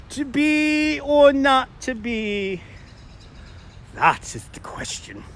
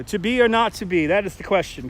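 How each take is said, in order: First: Hammed-up British Shakespearean recital; horrible British accent. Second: Said in the usual way. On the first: Shown as a demonstration. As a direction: slowly declaim it in a bad British accent. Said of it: "I will try to read them in a horrible British accent". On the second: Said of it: "British accent".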